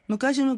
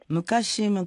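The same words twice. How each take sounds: First: The phrase is said quickly. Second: The phrase is said slowly. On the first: The speaker calls it wrong. "なんて言わないで" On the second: The speaker calls it right. "くらいね"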